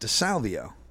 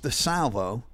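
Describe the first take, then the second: First: The name has an extra 'ee' before 'o'. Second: The name ends in a plain 'vo' sound. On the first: The speaker calls it wrong. "And I pronounce it DeSalvio" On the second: The speaker calls it right. "his name's DeSalvo"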